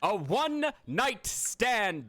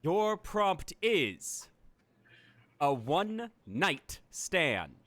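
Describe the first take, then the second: First: Drawn-out repeat with a higher start; slow dramatic announcement. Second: Drawn-out, deliberate reveal; slow dramatic announcement. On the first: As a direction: announce it slowly once more. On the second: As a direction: announce it slowly like a game host. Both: Acted.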